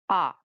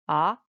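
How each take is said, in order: First: The pitch falls sharply from high to low. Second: The pitch rises from middle to high. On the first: "the fourth tone" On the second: "it's definitely a rise tone"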